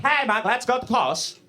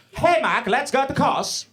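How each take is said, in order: First: Put-on a higher, lightly singsong Norwegian accent; mock Norwegian accent. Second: Higher, hammed-up singsong Norwegian accent; mock the Norwegian friends' singsong accent, up high. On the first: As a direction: lightly mimic the Norwegian friends again. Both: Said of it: "that's how they sound".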